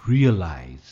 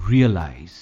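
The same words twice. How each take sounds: Both takes have the same delivery.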